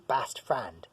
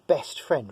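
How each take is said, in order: First: An American accent with the vowel lowered toward 'a'. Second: A British accent with a plain 'e' vowel.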